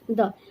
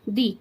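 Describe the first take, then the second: First: The vowel is short and neutral, like 'thuh'. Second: The vowel is long and high, like 'thee'. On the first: The next word starts with a consonant sound. "अगर consonant sound आ जाता है तो वहां पे हम क्या लगाते हैं?" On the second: The next word starts with a vowel sound. "कोई भी साउंड जो वॉवल के साथ शुरू हो ... दी बोलेंगे"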